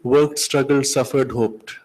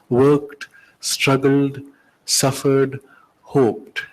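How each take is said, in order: First: The words run together without pauses between them. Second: Each word is separated by a clear pause. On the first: The speaker calls it wrong. "Somehow it merges into each other" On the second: The speaker calls it right. "You're forced to separate with pauses"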